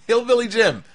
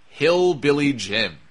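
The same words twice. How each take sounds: First: High, incredulous exclamation after a laugh; pitched-up, delighted astonishment; amused disbelief. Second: Slow, deliberate name drop; slowly savoured punchline; dramatic reveal. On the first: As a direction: repeat the name as if you can't believe it. Repeats the name in amused disbelief. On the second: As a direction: draw the name out for the big reveal. Slow reveal of an unlikely person. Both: Real, not acted.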